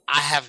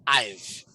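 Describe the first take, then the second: First: Both words are said in full. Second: The words are reduced to one syllable. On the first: "Instead of saying I have none" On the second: "you will pronounce this as there is a contraction or a reduction as I've"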